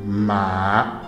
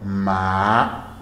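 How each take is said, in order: First: The pitch rises from middle to high. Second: The pitch rises from middle to high.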